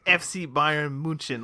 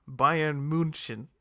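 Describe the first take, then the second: First: "F C Bayern München" slowly in German; mock pretentious "F C Bayern München"; German pronunciation. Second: "Bayern München" slowly with German ü and ch; mock posh German "Bayern München"; German pronunciation. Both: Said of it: "he pronounces".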